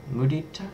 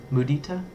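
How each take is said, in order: Both takes have the same delivery.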